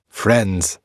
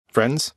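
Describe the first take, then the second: First: "Friends." said firmly with a falling end; settling tune. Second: "Friends?" as a hopeful question rising at the end; asking tune. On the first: Zagreus answering his own offer to Tisiphone, falling statement. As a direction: close "Friends." like an agreed fact. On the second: Zagreus offering friendship to Tisiphone, rising question. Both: Shown as a demonstration.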